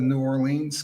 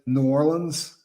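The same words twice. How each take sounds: First: The name is said the outsider way. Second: The name is said the local way. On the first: The speaker comes across as being from somewhere else. The speaker calls it wrong. "instead of New Orleans because the locals look at you like you're from uh, Mars" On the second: The speaker fits in with the people who live there. The speaker calls it right. "you gotta say New Orleans"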